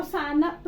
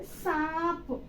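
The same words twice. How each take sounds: First: "सानप" as "saa-nap", n sounded fully; błędna wymowa. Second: "सांप" drawn out with a nasal long aa; poprawna wymowa. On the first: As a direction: break "सानप" into two syllables with "nap". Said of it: "नहीं पढ़ेंगे". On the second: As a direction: stretch "सांप" slowly through the nose to p. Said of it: "इसको सानप नहीं पढ़ेंगे". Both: Shown as a demonstration.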